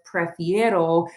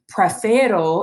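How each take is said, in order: First: The stem has an ie diphthong. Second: The stem has a plain e vowel. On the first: The speaker calls it right. "instead of prefiero" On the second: The speaker calls it wrong. "if I just start saying prefero"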